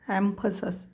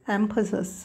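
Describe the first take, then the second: The two takes are said the same way.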